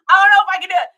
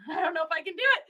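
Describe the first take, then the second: First: Loud exclamation. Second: Giggling mumble. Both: Real, not acted. Can't face reading it.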